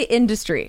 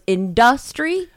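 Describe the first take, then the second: First: The stress is on the first syllable. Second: The stress is on the second syllable. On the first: The speaker calls it right. "I say industry" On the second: The speaker calls it wrong. "Does he want to say industrial? So he goes industry"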